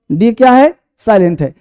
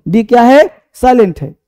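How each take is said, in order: Both takes have the same delivery.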